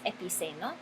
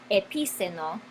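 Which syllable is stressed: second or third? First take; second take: third; second. First: The stress is on the third syllable. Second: The stress is on the second syllable. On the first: The speaker calls it right. "La palabra es epiceno" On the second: The speaker calls it wrong. "con tilde sobre la i"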